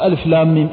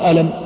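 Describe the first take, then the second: First: Each letter is read out by its name. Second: The letters are read together as one word. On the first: The speaker calls it right. "أنت الآن تقول ألف لام ميم" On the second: The speaker calls it wrong. "لماذا لم تقل ألم؟"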